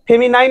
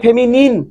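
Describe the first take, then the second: First: The last syllable rhymes with 'nine'. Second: The last syllable is a short 'nin'. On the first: The speaker calls it wrong. "ফেমিনাইন নয়" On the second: The speaker calls it right.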